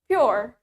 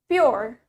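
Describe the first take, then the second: The two takes are said the same way.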